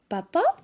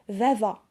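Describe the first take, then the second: First: The word begins with a p sound. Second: The word begins with a v sound. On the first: This is the standard form of the word. "pour prononcer papa" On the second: This is how people in the southern region say it. "ils disent vava"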